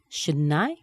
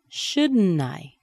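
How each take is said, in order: First: The voice rises at the end. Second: The voice falls at the end.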